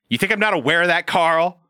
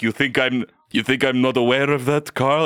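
First: High, exasperated modern sass; bitchy modern Dracula, laughing at the end; sassy Dracula. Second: Said in the usual way. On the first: Retold or imitated. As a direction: roll your eyes at Carl. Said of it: "Dracula goes". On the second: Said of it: "it wasn't like".

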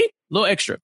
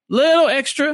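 First: Said in the usual way. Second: "Little extra" pitched high, first word stretched; playful emphasis. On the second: Real, not acted. Co-host jokes it is too much for her, playful emphasis on "Little extra". Repeats own remark for comic emphasis.

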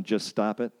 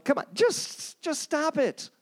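First: Said in the usual way. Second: Much higher, mock exasperated plea; high-pitched mock counselor begging; exasperated pleading. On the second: Voicing a useless counselor's advice.

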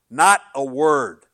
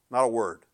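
First: NOT a word dragged out slowly and hit loud; slow, loud emphasis. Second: Said in the usual way. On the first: Shown as a demonstration. Preacher hammering that God gave not a word, slow and loud.

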